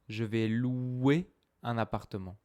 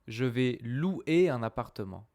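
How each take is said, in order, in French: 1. Le 'ou' dans louer glisse rapidement vers le 'é'. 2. Le 'ou' dans louer est une voyelle pleine et séparée. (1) "ou, ou, comme un ou" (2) "Je ne parle pas comme je vais louer un appartement"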